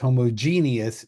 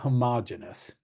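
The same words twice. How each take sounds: First: The word has five syllables, with an 'ee' sound. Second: The word has four syllables, without the 'ee' sound. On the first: The speaker calls it right. "that's pronounced homogeneous" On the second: The speaker calls it wrong. "not homogeneous. Homogeneous doesn't have that E right there"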